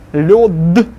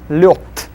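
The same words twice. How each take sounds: First: The final consonant is voiced. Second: The final consonant is voiceless.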